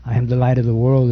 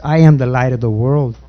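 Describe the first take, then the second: First: "I am the light of the world" rattled off fast; quick repeat of the title; quick restatement. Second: I Am the Light of the World with weight on Am, measured and falling; proclaiming the sermon title; sermon title announced. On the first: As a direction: repeat the title briskly, in passing. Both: Shown as a demonstration. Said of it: "the title of my sermon is".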